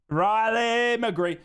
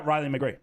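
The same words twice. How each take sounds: First: RILEY stretched out long; drawn-out name cheer. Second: Said in the usual way. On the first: Real, not acted. Streamer savours his favourite player's name, drawn-out cheer. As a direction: draw out Riley McGree slowly, savouring it.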